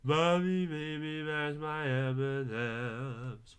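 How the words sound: The words are mumbled and hard to understand. The speaker calls it wrong. "Sounds like a bunch of mumbling to me"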